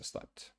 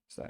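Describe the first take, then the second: First: The word ends with an audible final T sound. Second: The word ends without a final T sound. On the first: The speaker calls it right. "you have to pronounce the T there" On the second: The speaker calls it wrong. "Because if not, it's slap"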